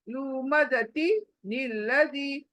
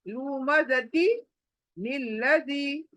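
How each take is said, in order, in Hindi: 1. शब्दों के बीच एक विराम है। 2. शब्दों के बीच एक विराम है।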